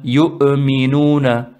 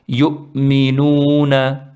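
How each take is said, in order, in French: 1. La hamza est relâchée avec un fort rebond. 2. La hamza est légère, sans aucun rebond. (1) "ils font qalqala. ... C'est un peu trop pour une Hamza" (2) "Elle se prononce yu'minuna"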